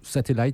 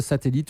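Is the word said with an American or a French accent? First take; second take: American; French. First: It is said with an American pronunciation. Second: It is said with a French pronunciation.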